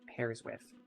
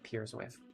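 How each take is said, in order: First: The vowel sounds like the one in 'pairs'. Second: The vowel sounds like the one in 'peers'. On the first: The speaker calls it right. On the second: The speaker calls it wrong. "I said that really weird. ... not peers with"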